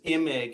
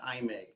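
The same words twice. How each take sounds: First: The name begins with a short I sound. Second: The name begins with a long I sound. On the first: The speaker calls it right. "it's a short I to begin the last name Imig" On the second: The speaker calls it wrong. "not long I"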